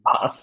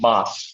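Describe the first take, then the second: First: The word begins with a v sound. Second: The word begins with a b sound. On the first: The speaker calls it wrong. "অনেকের ভাস শুনতেছি, ভাস না তো" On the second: The speaker calls it right.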